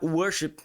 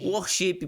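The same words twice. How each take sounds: First: It is said in a neutral accent. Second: It is said in a northeastern Brazilian accent.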